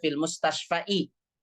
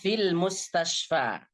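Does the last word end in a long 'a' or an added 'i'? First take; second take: added i; long a. First: The word ends with an added 'i' sound. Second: The word ends on a long 'a' sound. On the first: The speaker calls it wrong. "nggak boleh dibaca" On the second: The speaker calls it right. "dia selama-lamanya dibaca seperti itu"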